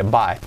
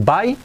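First: "buy" with a broad a fading to e; softened "buy". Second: "buy" with a sharp i ending, rising; plain Spanish "bai". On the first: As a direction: say "buy" falling, like "bae". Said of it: "un poco más de buy". ("buy" más abierto, casi "bae") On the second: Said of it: "me gusta más decir". ("buy" como "bai") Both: Shown as a demonstration.

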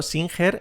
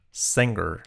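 First: SINGER read the Spanish way, "seen-HER"; wrong pronunciation. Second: SINGER with an E vowel and final R, "seng-er"; model pronunciation. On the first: Teacher warning learners off the mistake, wrong pronunciation. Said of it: "Cuidado, singer es singer". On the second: Teacher giving learners the model, correct pronunciation. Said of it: "la I como una E". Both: Shown as a demonstration.

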